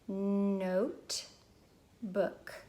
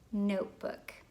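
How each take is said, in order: First: The word is split with a break between parts. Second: The word is said smoothly as one unit.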